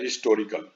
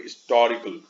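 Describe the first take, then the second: First: Said in the usual way. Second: British-accented हिस्टोरिकल, weight on the TOR syllable. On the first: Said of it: "जैसे हम लोग बोलते हैं". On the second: Shown as a demonstration. Teacher showing how British speakers say it, British accent. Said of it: "British accent वाले लोग".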